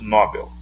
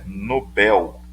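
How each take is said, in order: First: The stress falls on the first syllable. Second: The stress falls on the last syllable. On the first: The speaker calls it wrong. "nada de" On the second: The speaker calls it right. "A pronúncia correta é"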